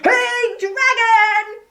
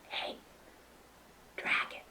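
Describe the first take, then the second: First: It is said aloud, not whispered. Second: It is whispered very softly.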